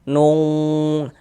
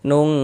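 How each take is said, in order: First: The sound is heavy and thick, like a deep q. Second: The sound is light and thin, like a plain k. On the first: The speaker calls it wrong. "jangan dibaca nung. Kalau kita baca nung ditebalkan begitu" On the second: The speaker calls it right. "jadi ditipiskan"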